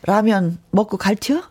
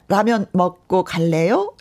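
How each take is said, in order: First: Chungcheong dialect, rising question; 충청도 사투리. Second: Said in the usual way. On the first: Shown as a demonstration. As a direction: ask it in an easygoing Chungcheong dialect. (충청도 사투리로) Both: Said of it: "충청도 버전".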